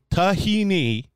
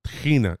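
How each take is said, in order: First: Tahini with a plain T and an ee ending; American pronunciation. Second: Tahina with a throaty H, stress on NA; Hebrew pronunciation. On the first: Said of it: "is what it's called in the United States". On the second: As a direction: say Tahina the Israeli way, ta-hee-NA. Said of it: "So tahini is what it's called". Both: Shown as a demonstration.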